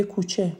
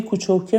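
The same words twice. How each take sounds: First: Said in the usual way. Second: "کوچوکه" with a Shirazi -oke ending; Shirazi accent. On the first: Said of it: "روی لهجهش کار کنه". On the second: Shown as a demonstration.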